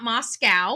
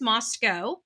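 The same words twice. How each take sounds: First: It is said like the Russian city. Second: It is not said like the Russian city. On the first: It names the city in Russia. The speaker calls it wrong. "not Moscow, like Russia" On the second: It names the town in Idaho. The speaker calls it right. "the pronunciation is Moscow"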